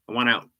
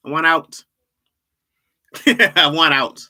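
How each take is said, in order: First: Said in the usual way. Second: Louder, higher cry on out; mock plea. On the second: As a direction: beg to escape, half-joking.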